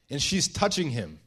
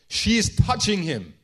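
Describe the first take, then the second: First: Said in the usual way. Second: "She's touching him" said louder, higher and slow; appalled emphasis. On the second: Acted. Pharisee appalled at the sinful woman, "She's touching him" loud and emphatic. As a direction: hit "touching" hard in "She's touching him", raised and drawn out. Simon's shock, repeated with force.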